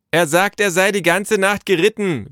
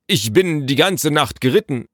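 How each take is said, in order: First: High, loud relay; repeating by calling. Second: Higher, lightly aggrieved official voice; reporting messenger. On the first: Naru relaying the messenger's words to father, calling out. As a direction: holler the report indoors. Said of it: "wiederholte Naru". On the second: Messenger telling Naru of his night's ride, stiffly. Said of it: "berichtete der Bote". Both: A narrator's reading.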